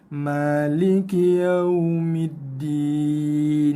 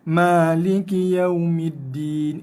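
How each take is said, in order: First: The diphthong sounds soft and gentle. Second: The diphthong sounds hard, with no softness. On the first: The speaker calls it right. "baca dia dengan lembut dan lunak" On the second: The speaker calls it wrong. "Tak ada lunak langsung"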